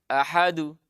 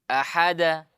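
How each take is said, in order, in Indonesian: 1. Pantulan akhir condong ke vokal u. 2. Pantulan akhir condong ke vokal a. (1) "terpantul ke dhamma" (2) "pantul ke fathah"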